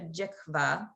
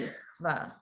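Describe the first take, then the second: First: The middle consonant sounds like a hard k. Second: The middle consonant is a soft, open-throated h. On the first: The speaker calls it wrong. "it may sound closer to jikva. That's not technically accurate" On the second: The speaker calls it right. "it's a softer ha"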